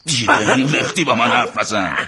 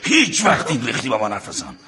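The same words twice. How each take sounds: First: لختی punched, falling at the end; stress on لختی. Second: هیچ وقت hit first and hardest, falling at the end; stress on هیچ وقت. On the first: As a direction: hit the word لختی hard. Grabs his brother and shakes him. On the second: Repeats the threat more firmly. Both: Acted.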